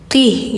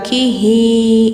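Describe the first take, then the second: First: The word ends on a bare, stopped h. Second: The word ends with an extra vowel after h. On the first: The speaker calls it right. "kalau mati tetap qih gitu" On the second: The speaker calls it wrong. "jadi nggak kihi"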